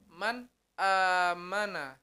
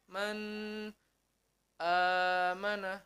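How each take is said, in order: First: The n is clear and flows without nasal hum. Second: The n is cut off with a break. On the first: The speaker calls it right. "bacanya yang pertama adalah harus jelas" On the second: The speaker calls it wrong. "tidak boleh terputus-putus. Contohnya seperti apa? Seperti ini"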